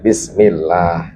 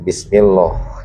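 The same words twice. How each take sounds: First: The L sound is thin and light. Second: The L sound is thick and heavy. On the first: The speaker calls it right. "tapi bismillah" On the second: The speaker calls it wrong. "bukan bismillah ya"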